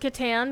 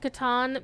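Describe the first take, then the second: First: The vowel sounds like the a in cat. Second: The vowel sounds like the a in father. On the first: The speaker calls it wrong. "I used to pronounce it Catan because that's the way I learned how to" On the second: The speaker calls it right. "it is actually Catan because uh, German does not have the a sound"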